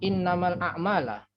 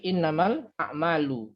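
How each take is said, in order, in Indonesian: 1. Kata terakhir berakhir dengan vokal 'a'. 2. Kata terakhir berakhir dengan vokal 'u'. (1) "Bukan dibaca innamal a'mala" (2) "tapi innamal a'malu"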